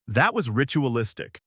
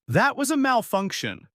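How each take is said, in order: First: Said in the usual way. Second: Angry growl. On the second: A narrator's reading. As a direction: snap "That was a malfunction" back high and hot. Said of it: "Ares growls".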